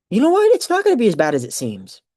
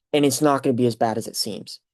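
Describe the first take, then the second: First: Rallying self-talk, pitched up at the start; emphatic realization. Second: Said in the usual way. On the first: Retold or imitated. Nervous graduate taking up a classmate's advice, emphatic realization. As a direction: burst in high and loud, then settle. Echoes advice as sudden resolve.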